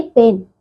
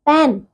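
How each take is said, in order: First: Said in the usual way. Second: पेन with an open vowel, like English "pan"; mispronounced पेन. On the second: Shown as a demonstration. Teacher shows pupils the error, open "ai" in पेन. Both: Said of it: "नहीं".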